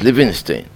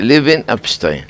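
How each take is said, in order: First: לוינשטיין run together as one name, Levinstein; misprinted name. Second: לוין אפשטיין as two names, Levin Epstein; corrected name. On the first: Rabbi quoting a printer's mistake, לוינשטיין as one word. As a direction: say לוינשטיין as a single surname, Levinstein. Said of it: "אין דבר כזה בעולם". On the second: Rabbi correcting the publisher's name, לוין אפשטיין in two words. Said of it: "אני אמרתי". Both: Shown as a demonstration.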